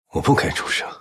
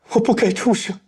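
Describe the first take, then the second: First: It sounds wry and self-mocking, full of self-loathing. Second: It sounds overly dramatic and full of exaggerated grief. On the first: "你可以选择自嘲，早已自我厌弃" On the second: "如果情绪过于的夸张"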